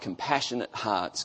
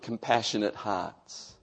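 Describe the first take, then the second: First: The phrase is spoken quickly. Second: The phrase is spoken slowly. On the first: "I said that really quickly" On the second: "let me just slow down a bit"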